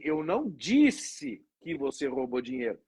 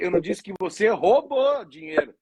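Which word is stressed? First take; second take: disse; roubou. First: The stress is on "disse". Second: The stress is on "roubou".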